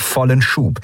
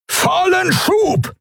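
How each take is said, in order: First: Said in the usual way. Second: Very high, drawn-out yell; desperate bellowed command; roared command. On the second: A narrator's reading. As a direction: roar the order slowly, pitch way up. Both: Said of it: "brüllte Thelios".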